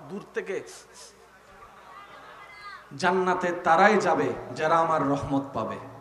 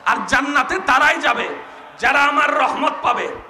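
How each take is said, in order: First: The line is spoken at normal volume. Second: The line is spoken more loudly.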